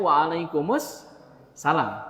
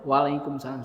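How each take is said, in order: First: The 'al' before 'salam' is clearly pronounced. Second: The 'al' before 'salam' is not pronounced. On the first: The speaker calls it right. "harusnya waalaikumsalam karena alif lamnya harus dibaca" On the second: The speaker calls it wrong. "salah itu"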